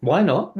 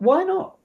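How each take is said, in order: First: Said in the usual way. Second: WHY NOT with NOT rising high into a question. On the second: Shown as a demonstration. Echoing a line as a question in a drama exercise, questioning. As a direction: throw back "Why not?" in a much higher, questioning tune. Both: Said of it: "like, questioning".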